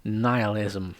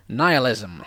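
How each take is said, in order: First: Deadpan, drained of emotion; low-key, unexcited delivery; emotionless. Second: A touch too much excitement; too excited. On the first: Shown as a demonstration. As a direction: say it with no feeling either way. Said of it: "not meant to have any emotion to it". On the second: Real, not acted. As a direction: land the word with a little relish. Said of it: "I said that too excitedly".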